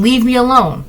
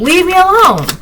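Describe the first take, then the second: First: Said in the usual way. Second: Yelling. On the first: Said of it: "I'm just saying". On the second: Shown as a demonstration. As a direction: yell it so everyone looks. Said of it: "I'll yell if I have to".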